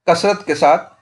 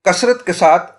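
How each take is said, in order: Both takes have the same delivery.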